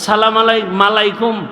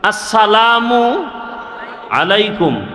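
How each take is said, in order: First: An extra 'ma' syllable is inserted before 'laikum'. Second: 'Alaikum' is said plainly without an extra syllable. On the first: The speaker calls it wrong. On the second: The speaker calls it right.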